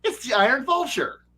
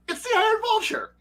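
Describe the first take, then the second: First: Said in the usual way. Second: Excited. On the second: Retold or imitated. Repeats it in disbelieving excitement.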